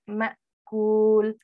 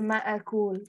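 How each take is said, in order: First: The glottal stop is held with no vowel. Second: A vowel follows the glottal stop. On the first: The speaker calls it right. "the hamza has a sukoon... We have to stop for sukoon" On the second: The speaker calls it wrong. "We don't say ma'akul"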